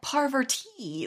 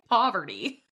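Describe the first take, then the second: First: The T sound in the name is strongly emphasized. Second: The name sounds like poverty, T not emphasized. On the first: "she emphasizes the T" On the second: "so clearly it's like Poverty"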